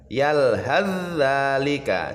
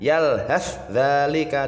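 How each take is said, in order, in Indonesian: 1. Bunyi th menyatu sepenuhnya ke dalam dh. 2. Bunyi th terdengar terpisah sebelum dh. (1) "sa sukunnya ini dimasukkan ke zal" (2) "jangan yalhadzalika, tidak boleh"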